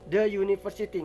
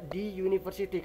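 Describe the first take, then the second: First: The word 'the' ends in a short 'uh' vowel. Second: The word 'the' ends in a long 'ee' vowel. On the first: The speaker calls it right. "dibacanya the" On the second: The speaker calls it wrong. "nggak dibaca di university"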